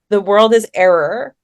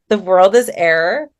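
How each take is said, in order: First: The last word sounds like 'error', two syllables. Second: The last word sounds like 'air', one syllable. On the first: The speaker calls it right. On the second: The speaker calls it wrong.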